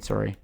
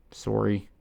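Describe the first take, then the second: First: Apology in a Canadian accent. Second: Said in the usual way. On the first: Shown as a demonstration. Correcting a slip on screen, playful Canadian accent. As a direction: put a Canadian accent on "sorry". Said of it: "I'll do Canadian". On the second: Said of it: "I'll do Canadian, sorry".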